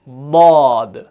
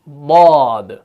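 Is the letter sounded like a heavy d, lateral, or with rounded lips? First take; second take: lateral; lateral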